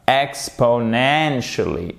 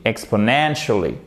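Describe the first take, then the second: First: "Exponentially" slow, beat on EX, main stress on NEN; secondary and main stress. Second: "exponentially" run together, falling after NEN; stress on NEN. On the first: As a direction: count out EX-po-NEN-shuh-lee slowly. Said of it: "on remet un petit coup d'accent tonique au début". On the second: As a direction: main stress on third syllable of "exponentially". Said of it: "où se trouve l'accent tonique". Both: Shown as a demonstration.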